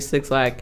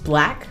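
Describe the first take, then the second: First: The name is said as two syllables. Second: The name is said as one syllable. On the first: The speaker calls it wrong. "I just messed it up" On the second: The speaker calls it right. "It's black"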